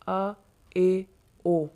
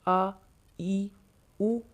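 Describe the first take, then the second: First: The vowels are ay and oh. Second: The vowels are long ee and oo. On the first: The speaker calls it wrong. "ये मजहूल तरीका है" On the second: The speaker calls it right. "ये मारूफ तरीका है"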